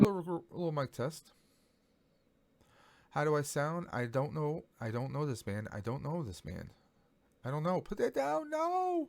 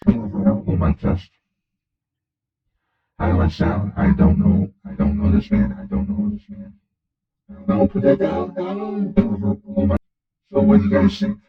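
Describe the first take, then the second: First: Chipmunk voice filter. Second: Loud, disguised filtered voice; witness protection voice. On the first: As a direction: test line through a chipmunk filter. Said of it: "Alien Chipmunk". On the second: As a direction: hide your identity with a voice filter. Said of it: "So, witness protection". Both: Shown as a demonstration.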